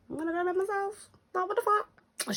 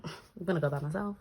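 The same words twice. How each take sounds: First: High, fast and fed up; shrill inner rant to herself; exasperated inner voice. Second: Said in the usual way. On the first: Retold or imitated. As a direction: squeak it out in disbelief. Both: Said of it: "in my head, I'm thinking".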